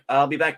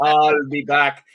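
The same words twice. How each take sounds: First: It is said plainly, in an everyday way. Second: It is said dramatically, like the movie line.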